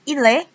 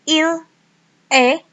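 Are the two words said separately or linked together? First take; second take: linked; separately. First: The two words are linked together. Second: The two words are said separately.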